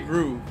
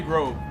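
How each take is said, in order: First: The vowel is a long 'oo' sound. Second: The vowel is a long 'oh' sound. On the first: The speaker calls it wrong. "They say Groove" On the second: The speaker calls it right. "they don't say Grove"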